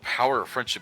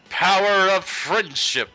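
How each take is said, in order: First: It is said in a plain, flat way. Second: It is said in a bright, sparkly way. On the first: The speaker calls it wrong. "You're not saying it right" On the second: The speaker calls it right. "with that many rainbows"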